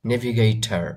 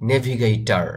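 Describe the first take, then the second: Both takes have the same delivery.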